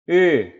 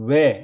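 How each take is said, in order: First: The lip shape stays fixed during the vowel. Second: The lip shape changes during the vowel. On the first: The speaker calls it right. "입 모양이 절대 변하지 않는 것이죠" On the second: The speaker calls it wrong. "동그랗게 오므렸다가 외 이렇게 하는 겁니다 ... 사실 근데 그건 틀린 발음이거든요"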